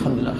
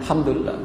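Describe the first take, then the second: First: The phrase is rattled off quickly. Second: The phrase is said slowly and deliberately. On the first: It is said only with the lips. The speaker calls it wrong. "Nggak ada alhamdulillah, alhamdulillah" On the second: The blessings are truly felt. The speaker calls it right. "itu pelan-pelan"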